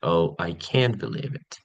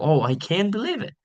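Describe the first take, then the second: First: Slow, flat, no emphasis; bored monotone. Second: High, rising dramatic tone; enthusiastic surprise. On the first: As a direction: demonstrate boredom with no emotional investment. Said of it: "monotone with no emphasis or emotion". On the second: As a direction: demonstrate enthusiasm with pitch climbing on "believe it". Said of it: "rising and dramatic tone". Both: Shown as a demonstration.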